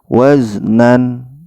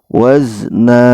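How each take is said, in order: First: It ends with a final n sound. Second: It ends on a lengthened a vowel. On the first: The speaker calls it wrong. "jangan sampai waznan" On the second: The speaker calls it right. "maka harus dibaca panjang dua harokat"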